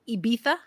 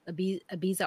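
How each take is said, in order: First: The name has its local Spanish pronunciation. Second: The name has its usual English pronunciation.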